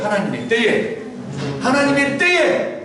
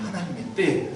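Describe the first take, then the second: First: 때에 drawn out with a rise; 때에 lifted and held, slow; call and response. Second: 때에 said low and soft; stress on 때에. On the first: Congregation repeats after the pastor, 때에 rising. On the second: Preacher models the phrase for the congregation, leaning on 때에. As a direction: lean on 때에 at the end. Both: Shown as a demonstration. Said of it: "따라서 볼까요".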